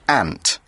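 It is said with an American pronunciation. "In the US, it is kind of pronounced more like ant"

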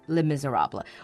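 It is said with English sounds, like 'miserable'. "But English speakers would just say Les Miserables"

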